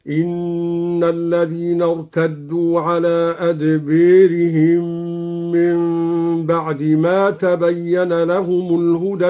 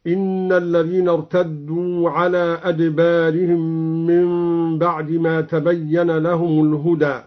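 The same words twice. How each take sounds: First: أدبيرهم with the alif leaned toward e; imala on adbarihim. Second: Said in the usual way. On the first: Shown as a demonstration. Teacher recites Al-Duri's imala for students, slow chant. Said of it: "هكذا". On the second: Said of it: "قرأ الدوري بإمالة الألف قبل الراء".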